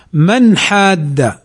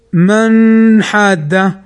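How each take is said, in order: First: Slow "من حاد", short clear n with no hum; correct izhar. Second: Very slow "من حاد", n stretched through the nose, as a mistake; wrong nasalized demo. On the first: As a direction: release the n of "من" cleanly into the ha of "حاد". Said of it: "وإنما". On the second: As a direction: hum the n of "من" long before "حاد". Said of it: "فلا نقل أو فلا تقل". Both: Shown as a demonstration.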